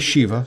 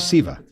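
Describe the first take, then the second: First: The word begins with an 'sh' sound. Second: The word begins with an 's' sound. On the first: "Some say Shiva" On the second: "others say Siva"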